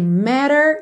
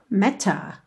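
First: It has an American accent with a flapped T. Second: It has a British accent with a crisp T.

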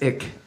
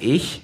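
First: The word ends in a hard k sound. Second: The word ends in a soft hissing sound. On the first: The speaker calls it wrong. "And she says ick" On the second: The speaker calls it right. "the word for I is ich"

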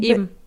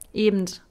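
First: It ends without a 'd' sound. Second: It ends with a 'd', the Berlin way.

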